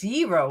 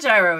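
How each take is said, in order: First: The word begins with a Y sound. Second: The word begins with a hard G sound. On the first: The speaker calls it right. "It's gyro. ... The G is silent" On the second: The speaker calls it wrong. "No, it's not gyro"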